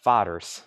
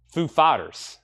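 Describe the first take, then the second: First: the second word stressed and falling. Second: the first word stressed, the second light. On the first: Auction host corrects himself, stress on the second word. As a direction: lean on the second word of the band name. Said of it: "The emphasis is actually on". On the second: Live auction host says band name, stress on the first word. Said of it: "He puts the emphasis on the first word". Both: Shown as a demonstration.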